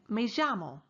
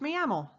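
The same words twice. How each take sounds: First: The double L sounds like a J. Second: The double L sounds like a Y. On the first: "The native speaker in this course uses the J sound" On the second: "Many Spanish speakers do indeed say the double L sound with more of a Y sound"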